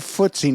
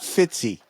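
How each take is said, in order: First: The first syllable sounds like 'foot'. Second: The first syllable sounds like 'fit'. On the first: The speaker calls it right. "they say footsie" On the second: The speaker calls it wrong. "not fitsy"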